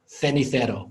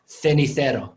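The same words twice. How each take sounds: First: The first consonant is a th sound. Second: The same.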